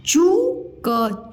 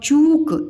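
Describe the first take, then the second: First: चूक split, high rising चू, then क; sounded out slowly. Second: चूक said as one joined word, long ऊ; blended word. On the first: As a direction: sound out चूक in two slow pieces. (चूक को अलग-अलग तोड़कर, धीरे) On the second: (चूक एक साथ जोड़कर) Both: Shown as a demonstration. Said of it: "मैं अलग-अलग बताया करूँ".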